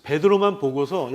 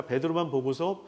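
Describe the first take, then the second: First: 베드로만 punched out louder; stress on 베드로만. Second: Said in the usual way. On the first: Shown as a demonstration. Preacher stressing 베드로만 to the congregation, louder. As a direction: lean hard on 베드로만 as the key word. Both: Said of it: "베드로를 꾸짖은 것이 아니라".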